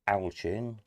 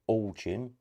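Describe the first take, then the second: First: The first syllable sounds like 'Al', then 'chin'. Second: The first syllable sounds like 'all', then 'chin'. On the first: "or Al, as in short for Alan" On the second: "is it all chin, as in all of these"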